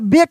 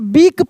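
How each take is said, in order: First: The vowel is a short e sound. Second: The vowel is a long ee sound. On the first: The speaker calls it wrong. "बेक नहीं पढ़ेंगे" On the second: The speaker calls it right. "इसको हम बीक पढ़ेंगे"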